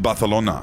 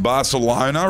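First: The c is pronounced like th. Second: The c is pronounced like s. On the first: The speaker seems pretentious. "with the th sound" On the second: The speaker seems uncultured. "pronounce it how it was written"

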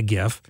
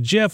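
First: The word starts with a hard g sound. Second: The word starts with a j sound. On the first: The speaker calls it right. "It's got to be a GIF" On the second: The speaker calls it wrong. "somebody argue with me and said it was a GIF, and I said, no, that's peanut butter"

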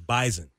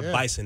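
First: The middle consonant is a buzzing z sound. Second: The middle consonant is a hissing s sound. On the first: The speaker calls it right. "It's a Z sound. It's Bison" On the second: The speaker calls it wrong. "It's not an S. It's not Bison"

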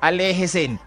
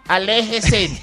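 First: The n sound comes at the end. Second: The n sound comes in the middle. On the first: The speaker calls it wrong. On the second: The speaker calls it right.

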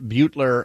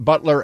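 First: It sounds like the name Bueller. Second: It sounds like the word butler. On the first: The speaker calls it wrong. "not Butler as in Ferris Bueller" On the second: The speaker calls it right. "pronounced Butler as in the who brings hors d'oeuvres"

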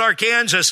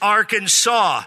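First: It ends like Kansas, with the s sounded. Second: It has three syllables with the s silent. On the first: The speaker calls it wrong. "it's not Arkansas" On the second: The speaker calls it right. "three syllables with the final S silent"

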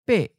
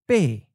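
First: The syllable is high and cut short. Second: The syllable falls from a high pitch. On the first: "high stop" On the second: "In the common southern accent, the eighth tone is often of a high falling tone"

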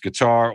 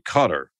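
First: It is said the usual non-local way. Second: It is said the way locals say it.

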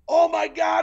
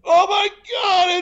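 First: The voice projects but is held back. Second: The voice is loud and screamed. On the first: The speaker calls it right. "You gotta use a way to back off your voice as you're projecting your voice" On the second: The speaker calls it wrong. "without screaming at me. ... That's not how you want to do it"

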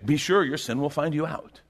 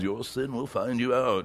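First: It is said in an ordinary voice. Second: It is said in an ominous voice.

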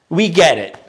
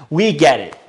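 No difference in how they are said.

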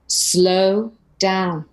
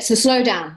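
First: It is said slowly. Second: It is said quickly.

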